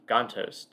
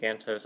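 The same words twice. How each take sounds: First: Gantos with a broad AH, GAHN-tohs; alternative pronunciation. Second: Gantos with a flat A, GAN-tohs; short front A in Gantos, as in "can't"; chosen pronunciation. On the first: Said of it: "learn how to pronounce his name". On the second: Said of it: "I'm gonna say Gantos". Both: Shown as a demonstration.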